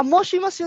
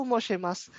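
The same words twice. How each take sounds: First: Moshimasu with a clear "shi", higher pitch; correct pronunciation. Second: Moshimasu said as "moshemas", softer; mispronounced. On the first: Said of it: "moshimasu yun, sir, no?". (moshimasu na malinaw ang "shi") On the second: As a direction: turn the "shi" of moshimasu into "she". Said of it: "Hindi po moshimasu". (moshimasu na binigkas na "moshemas") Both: Shown as a demonstration.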